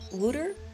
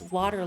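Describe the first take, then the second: First: It is said in an East Coast Canadian accent. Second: It is said in a plain Midwest Canadian accent.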